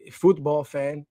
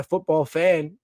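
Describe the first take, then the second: First: Football fan said slowly, as futbol, British-style; stylistic football accent. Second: Said in the usual way. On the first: Shown as a demonstration. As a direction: stretch out football fan in a posh soccer accent. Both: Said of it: "in a little stylistic accent".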